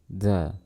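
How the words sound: A puff of breath is heard with it. The speaker calls it wrong. "jangan lafalkan seperti ini... teman-teman bisa mendengar sembusan nafas"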